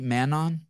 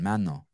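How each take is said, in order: First: The name ends with a clear N sound. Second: The name ends without any N sound. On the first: "Am I saying your name right" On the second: "So don't even pronounce the N at the end"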